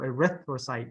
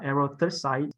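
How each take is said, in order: First: The stress falls on the second syllable. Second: The stress falls on another syllable. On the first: The speaker calls it right. "so erythrocyte" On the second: The speaker calls it wrong. "not erythrocyte"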